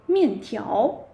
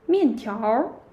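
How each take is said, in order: First: The word ends without an r sound. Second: The word ends with an r sound. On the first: "without er" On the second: "with er"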